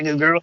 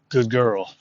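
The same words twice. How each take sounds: First: It is said with high, excited energy. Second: It is said in a calm, neutral tone. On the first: The speaker calls it wrong. "watch your energy on it. Like I just did a yeah" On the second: The speaker calls it right. "You want to be neutral. You go, yes"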